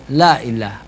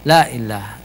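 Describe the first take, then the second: Both takes have the same delivery.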